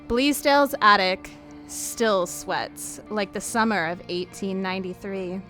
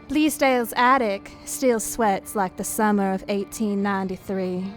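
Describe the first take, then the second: First: It is read in the speaker's ordinary accent. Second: It is read in a Southern US accent.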